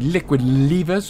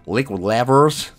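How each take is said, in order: First: It is said in a British accent. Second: It is said in an American accent.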